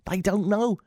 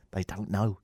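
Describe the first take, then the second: First: Higher-pitched, insistent repeat. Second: Low, soft aside; hushed aside. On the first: Host insisting about listeners in America, high repeat. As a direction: lift the pitch on the whole phrase. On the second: Host confiding about listeners in America, hushed aside. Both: Acted.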